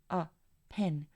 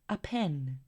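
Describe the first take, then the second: First: A pause separates the article from the noun. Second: The reduced article runs straight into the noun. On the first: The speaker calls it wrong. "artículo y luego una pausa seguido del sustantivo" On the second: The speaker calls it right. "conectar su artículo con su respectivo sustantivo"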